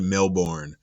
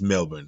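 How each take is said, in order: First: The name is pronounced the common outsider way. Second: The name is pronounced the local way. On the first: The speaker calls it wrong. "some of us pronounce it like Melbourne" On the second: The speaker calls it right. "but it's it's Melbourne"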